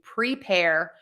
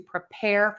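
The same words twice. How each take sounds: First: The first syllable has a full, clear vowel. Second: The first syllable has a reduced schwa vowel. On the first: The word is the focus of the sentence. "using that as a focus word and really saying both sounds" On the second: The word is not the focus of the sentence. "all of those are going to be that schwa"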